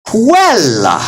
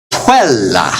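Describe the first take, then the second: First: "Quella" with the first syllable pitched high, then falling; raised-voice accent. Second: "Quella" with firm emphasis on "Quel"; pushed stress accent. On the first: Teacher demonstrates optional pitch accent, voice raised on "Quel". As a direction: lift the voice sharply on "Quel" in "Quella". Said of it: "you can raise your voice there". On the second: Teacher demonstrates standard stress accent, emphasis pushed on "Quel". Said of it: "you just push emphasis". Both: Shown as a demonstration.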